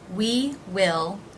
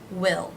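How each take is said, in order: First: The vowel is long, as in 'see'. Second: The vowel is short, as in 'sit'.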